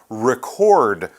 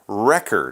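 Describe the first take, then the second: First: The stress is on the second syllable. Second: The stress is on the first syllable. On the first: It is a verb. "That would be to record something" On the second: It is a noun. "it's a noun, so we say it record"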